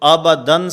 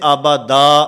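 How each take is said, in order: First: The word ends with an n sound. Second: The word ends with a long a. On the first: The reading continues without a stop. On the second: The reader stops on this word.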